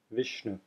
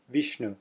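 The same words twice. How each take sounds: First: "Vishnu" with a short i like pin. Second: "Vishnu" with a short ee vowel; correct Vishnu. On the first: Teacher modeling the common pronunciation. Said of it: "when you say the word". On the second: Teacher giving the correct pronunciation. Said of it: "Technically, the correct pronunciation". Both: Shown as a demonstration.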